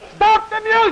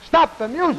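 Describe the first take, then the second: First: It is shouted more loudly. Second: It is shouted less loudly.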